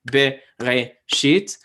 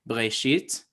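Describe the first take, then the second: First: A full vowel follows the first consonant. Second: The first two consonants run together without vowel. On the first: This is how the word feels counted in English beats. "We think like Bereshit" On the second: This is how a modern Israeli speaker says it. "a modern Israeli speaker is probably just going to say Breshit"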